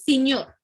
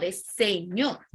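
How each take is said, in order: First: "señor" said louder as "iñor" without the S; vulgar iñor. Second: "señor" said slow and clear with its full S; correct señor. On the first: Teacher shows the class the slangy form, "iñor" without the S. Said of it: "Señor no es señor". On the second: Teacher gives students the correct form, slow and clear. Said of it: "no es señor, es señor". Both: Shown as a demonstration.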